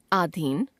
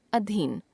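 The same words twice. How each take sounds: First: अधीन with a long first aa, "aadheen"; wrong pronunciation. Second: Said in the usual way. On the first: Shown as a demonstration. Teacher showing a common error, अधीन said as "aadheen". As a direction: lengthen the opening vowel of अधीन, rising at the end. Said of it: "अशुद्ध". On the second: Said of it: "शुद्ध".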